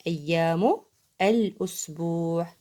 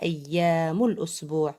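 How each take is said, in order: First: Measured teacher's repeat, أيام and الأسبوع said separately; word by word. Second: Said in the usual way. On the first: Shown as a demonstration. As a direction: split أيام from الأسبوع with a clear pause.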